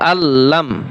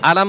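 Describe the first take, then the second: First: The l sound is held long and doubled. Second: The l sound is short and single. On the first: The speaker calls it right. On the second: The speaker calls it wrong. "আলাম বলবেন না কিন্তু"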